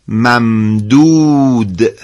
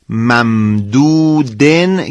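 First: The word ends without an added n sound. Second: The word ends with an added n sound. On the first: The reader stops at this word. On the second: The reading continues into the next words.

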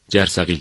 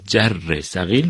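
First: The word is said with one syllable dropped. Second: The word is said in full, with all syllables. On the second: "جر ثقیل رو"

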